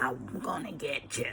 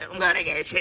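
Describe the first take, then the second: First: It is said at a slower pace. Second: It is said at a much faster pace.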